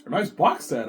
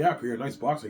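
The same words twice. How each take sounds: First: Higher, louder box-set cheer; Peter's voice. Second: Said in the usual way. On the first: Retold or imitated. Peter praising the box set, higher and louder. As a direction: pitch it up, delighted.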